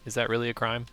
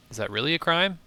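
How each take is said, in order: First: Said in the usual way. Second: Incredulous. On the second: Real, not acted. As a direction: pitch jumps up in disbelief. Player disputes the crime.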